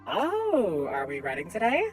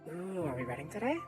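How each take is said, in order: First: It is said at a normal, louder volume. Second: It is said in a quiet, soft voice.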